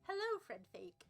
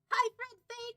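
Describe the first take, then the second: First: The greeting sounds gentle. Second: The greeting sounds aggressive.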